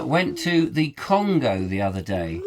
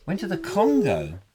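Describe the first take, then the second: First: Said in the usual way. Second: Playfully baffled echo, pitch swooping on Congo; mock-incredulous echo. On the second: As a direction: repeat it as a puzzled question. Echoes own statement as incredulous question.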